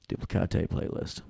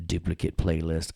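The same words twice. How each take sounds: First: "Duplicate" as doo-plih-KAH-tay; joke pronunciation. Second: Said in the usual way. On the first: Pretend. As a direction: say Duplicate mock-foreign, ending KAH-tay. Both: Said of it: "You thought I was gonna say duplicate".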